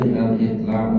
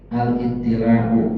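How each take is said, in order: First: It is read short, with one t and no i. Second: It is read long, with a doubled t and i. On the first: The speaker calls it wrong. "bukan itla' tadi saya salah baca" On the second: The speaker calls it right. "maka selayaknya al-ittila'u"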